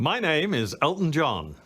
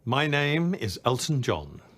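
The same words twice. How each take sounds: First: It is said in a showy, theatrical way. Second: It is said in a plainer, toned-down way.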